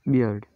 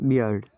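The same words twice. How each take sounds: Both takes have the same delivery.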